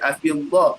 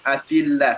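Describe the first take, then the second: First: The 'l' in 'Allah' is heavy and thick. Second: The 'l' in 'Allah' is light and thin. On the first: The speaker calls it wrong. "Tak boleh baca" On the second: The speaker calls it right. "Tetap dibaca dengan nipis"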